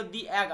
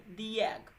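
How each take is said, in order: First: "the egg" as a plain "di egg" with no y glide; wrong pronunciation. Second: "the egg" said slowly as "dee yegg" with a y glide; slow "the egg", sliding a y before egg; correct pronunciation. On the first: Teacher shows students the mistaken "the egg". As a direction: say "the egg" without the y-sound. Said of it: "the egg मत बोलना". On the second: Teacher slowly models the right "the egg" for students. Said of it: "वाई में". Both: Shown as a demonstration.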